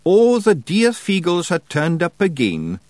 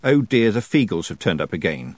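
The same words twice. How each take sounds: First: High, slow Scottish wee man reading proudly; Feegle misreading aloud. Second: Said in the usual way. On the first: A narrator's reading. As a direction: sound out the wrong words with glee. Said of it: "he said". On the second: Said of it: "He read".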